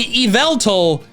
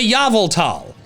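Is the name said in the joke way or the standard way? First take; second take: standard; joke. First: The name is said in its usual standard pronunciation. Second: The name is said in a silly, joke pronunciation. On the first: "saying Yveltal feels so wrong" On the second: "I default to Yveltal"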